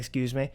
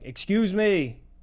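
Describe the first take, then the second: First: It is said softly and lightly. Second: It is said loudly and forcefully. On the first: "they might have been too light" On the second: "But I start saying it louder"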